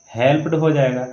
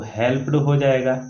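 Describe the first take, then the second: No difference in how they are said.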